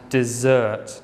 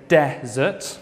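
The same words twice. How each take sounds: First: "dessert" said de-SSERT, the second syllable punched; slow "dessert", weight on the end, di-ZURT; stress on the second syllable. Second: "desert" said DE-sert, the first syllable punched; stress on the first syllable. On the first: Teacher contrasting dessert with desert, second syllable stressed. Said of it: "stress on the second syllable". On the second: Teacher contrasting desert with dessert, first syllable stressed. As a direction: lean on the start of "desert", DEH-zert. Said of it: "stress on the first syllable". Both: Shown as a demonstration.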